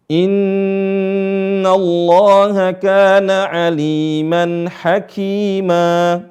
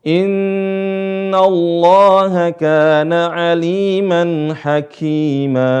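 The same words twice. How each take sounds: Both takes have the same delivery.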